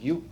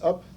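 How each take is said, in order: First: The word starts with a 'y' sound. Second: The word starts with a plain vowel. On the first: A newcomer read the spelling letter by letter. The speaker calls it wrong. "she pronounced it Yoop" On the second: This is the usual English pronunciation. The speaker calls it right. "it's up"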